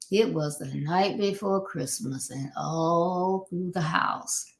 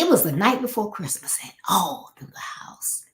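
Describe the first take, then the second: First: It is said in a flat, monotone voice. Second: It is said in a lively, varied voice.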